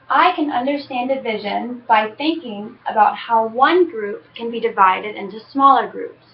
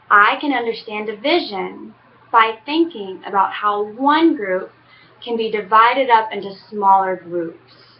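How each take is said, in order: First: It is read at a normal, faster pace. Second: It is read at a slower pace.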